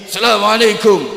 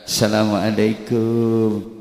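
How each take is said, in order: First: It is said loudly in a high pitch. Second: It is said softly in a lower pitch. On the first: It is an open, warm greeting to a teacher. "nada tinggi" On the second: It shows humble respect to a teacher. "kalau di Indonesia ini mengucapkan salam sambil membungkukkan badan"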